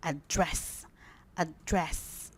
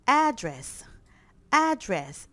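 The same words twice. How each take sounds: First: "address" as a-DRESS, first vowel reduced; stress on second syllable. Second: "address" as AD-dress, first syllable punched; stress on first syllable. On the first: Teacher showing the verb: "address" stressed on DRESS. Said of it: "the stress is". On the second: Teacher drilling students: "address" stressed on AD. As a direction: hit AD in "address", like the noun. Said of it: "The stress is here". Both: Shown as a demonstration.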